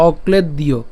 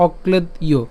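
First: "অক্লেদ দিয়" split as okled, diyo; "অক্লেদ দিয়" with the parts separated; broken into parts. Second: "অক্লেদ ইয়" joined as okled-iyo; "অক্লেদ ইয়" carefully linked; said together. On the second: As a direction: run "অক্লেদ ইয়" together as one word. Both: Shown as a demonstration. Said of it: "একসাথে বললে".

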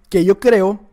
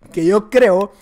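Both takes have the same delivery.

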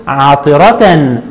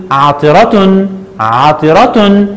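First: عطرة said slowly as "ʿaṭiratan"; tanween with fatha. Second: عطرة said very slowly as "ʿaṭiratun"; tanween with damma. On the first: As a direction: lay out عطرة with the "-tan" ending. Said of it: "عند التنوين بالفتح". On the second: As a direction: drag out عطرة and end on "-tun". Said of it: "وعند التنوين بالضم هنقول". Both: Shown as a demonstration.

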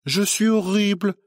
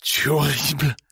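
First: High sneering parody of "horrible"; mocking mimicry. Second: Toneless voice. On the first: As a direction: throw his word "horrible" back at him, much higher and scornful. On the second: Acted. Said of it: "d'une voix blanche".

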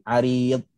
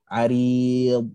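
First: Arid with the d cut off short; clipped arid. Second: Arid with the final d lingered on; held arid. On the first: Teacher shows the wrong clipped arid. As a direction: stop abruptly on the d of arid. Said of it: "jangan berhenti arid". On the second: Teacher models the correct lengthened arid. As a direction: hold the d of arid a moment longer. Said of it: "ada lama sikit pada makhraj dia". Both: Shown as a demonstration.

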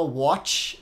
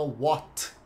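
First: "watch" with a hissy CH at the end; wrong CH ending. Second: "what" with a stopped T, no hiss; mute T. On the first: Teacher shows what not to say, "watch" with CH ending. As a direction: let the final sound hiss as CH in "watch". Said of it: "olha como a gente não fala". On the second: Teacher gives the right form, "what" with mute T. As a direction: cut "what" off on a silent T. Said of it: "o T mudo". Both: Shown as a demonstration.

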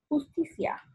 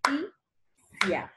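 First: Said in the usual way. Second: "Justicia" as jus, ti, cia with pauses; three slow separate beats for "Justicia"; syllable by syllable. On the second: Shown as a demonstration. Teacher clapping out the word, "Justicia" syllable by syllable. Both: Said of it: "Utiliza las palmadas para separar".

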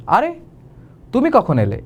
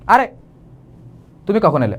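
First: Light, pleased surprise at the visitor; pleasantly surprised. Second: Irritated greeting, as if the visitor is a bother; annoyed. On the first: Teacher corrects the greeting to pleased surprise. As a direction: greet them with glad surprise. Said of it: "এবার ঠিক আছে". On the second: Teacher shows the wrong, annoyed take of a greeting. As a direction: say it fed up with the visitor. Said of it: "আরে, বিরক্ত হয়ে গেছে". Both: Shown as a demonstration.

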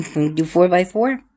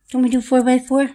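First: Playful question. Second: Squeaky higher question. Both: Acted. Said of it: "repeat higher".

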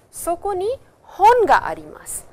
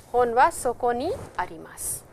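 First: "hon ga" punched much higher and louder; stress on "hon". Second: Said in the usual way. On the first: Shown as a demonstration. Teacher showing students the emphasis of particle ga, stress on "hon". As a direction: hit "hon" high and hard, then fall away on "arimasu". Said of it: "we stress with particle ga". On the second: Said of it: "you are putting stress on".

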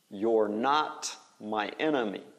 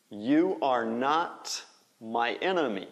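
First: "You're" as one syllable, like "yor"; contracted form. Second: "You are" as two distinct words; full form. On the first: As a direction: merge "You're" into one word before "not". (forma contraída, "You're" soando como "yor") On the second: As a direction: say "You are" in full, each word clear. (forma completa, "You are" em duas palavras) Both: Shown as a demonstration. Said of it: "Faz a contração".

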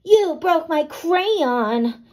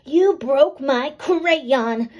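First: Slow, louder, higher crabby complaint; crabby Tilly. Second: Crabbier voice. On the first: Girl to friend about her broken crayon, crabby. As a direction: whine it out like a cross little girl. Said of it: "Tilly said in her crabbiest voice". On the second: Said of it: "maybe I should use crabbier and grouchier voices". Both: A narrator's reading.

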